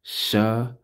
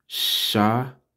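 First: Shabbat with the T released at the end; teacher repeating the word, ending on T; final T sounded. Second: Shabbat with a crisp final T; Shabbat, sha-bat, ending on a clear T; teacher modelling the word; spelled-out word. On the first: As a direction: land firmly on the T of Shabbat. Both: Shown as a demonstration. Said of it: "with a T at the end".

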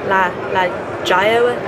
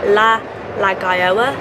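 Both takes have the same delivery.

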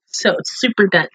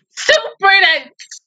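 First: Said in the usual way. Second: High, slow, tearful cry of super dense; crying wail. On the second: Real, not acted. Viewer crying out at a sad anime scene, tearful wail. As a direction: wail it out through tears.

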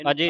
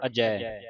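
First: ਅਜੇ said a-jey, closed e at the end; wrong e ending. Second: ਅਜੈ said a-jai, open final vowel; open ai ending. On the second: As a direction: end ਅਜੈ on a wide ai. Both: Shown as a demonstration. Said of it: "ਇਹਨੂੰ ਅਜੇ ਨਹੀਂ ਪੜ੍ਹਨਾ".

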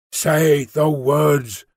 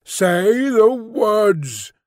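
First: Very slow, drawn-out echo; slow creature voice at usual pitch; ape-man repeating. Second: High, very drawn-out order; insistent creature voice, pitched up and very slow; louder creature command. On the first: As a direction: repeat it as a beast-man, stretching each word. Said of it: "said the ape-man, repeating". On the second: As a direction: stretch every word as an unseen beast demanding obedience. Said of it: "repeated in a louder tone". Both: A narrator's reading.

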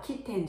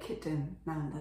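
First: Kitten with a clear "ten" ending; phonics reading. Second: Kitten with a reduced second vowel, KIT-n; natural pronunciation. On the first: Child rejecting the first reading learnt, phonics reading. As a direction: say kitten as kit-TEN, e fully sounded. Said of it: "じゃなくて". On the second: Child realising how the word really sounds, natural pronunciation. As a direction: swallow the e in kitten. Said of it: "なんだなっ". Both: Shown as a demonstration.

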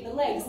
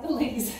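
First: "legs" with a short open e; plain, short vowel in "legs"; standard "legs". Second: "legs" with a long, raised vowel; mispronounced "legs". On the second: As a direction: say "legs" like "laygs" or "leegs". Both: Shown as a demonstration. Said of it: "not the legs".

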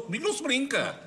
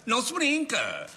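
First: Higher, puffed-up brag: nobody messes with me; tough-guy boast. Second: Slowed right down, Não se brinca drawn out as a warning; slow menacing repeat. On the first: Nico brags to the others about how tough he is, cocky. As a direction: Comigo não se brinca, thrown out proud and cocky. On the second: Nico repeats his boast to the others, slow and menacing. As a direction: lean on each word of Não se brinca like a threat. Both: Acted. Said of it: "o tipo de pessoa que eu sou".

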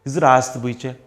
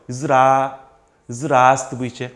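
First: Said in the usual way. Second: Ist das Buche broken into very slow separate pieces; slow syllable-by-syllable teaching read; chopped into chunks. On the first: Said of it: "제가 먼저 한번 읽어볼게요". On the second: Shown as a demonstration. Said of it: "그럼 이렇게 한번 끊어보세요".

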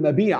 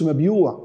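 First: مبيع said mabiʕ, long i; teacher gives the right مبيع as mabiʕ; correct form mabiʕ. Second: مبيوع said mabyuʕ with the y and long u; teacher shows the mistaken مبيوع; wrong form mabyuʕ. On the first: Teacher correcting pupils with the right form, mabiʕ. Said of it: "لا اقول". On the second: Teacher warning pupils off the wrong form, mabyuʕ. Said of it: "ما اقولش". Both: Shown as a demonstration.

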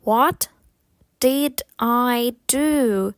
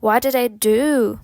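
First: Slow, drawn-out words with gaps; slower. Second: Connected, natural-speed question; faster. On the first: Teacher repeats the question for learners, slowly. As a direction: say it word by word, stretching each one. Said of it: "Повільніше". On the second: Teacher shows learners the quicker version, faster. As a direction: run it together in one go. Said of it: "потім швидше". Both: Shown as a demonstration.

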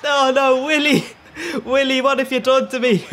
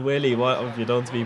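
First: High, loud anguished yell cracking into laughter; shouting. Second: Said in the usual way. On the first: Retold or imitated. Yelling at his keeper Willy over the conceded goal, loud laughing wail. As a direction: wail it at the screen in despair. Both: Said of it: "my neighbours are wondering why I'm shouting".

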